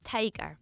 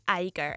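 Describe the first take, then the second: First: The first t is pronounced as a clear t. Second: The first t is replaced by a glottal stop.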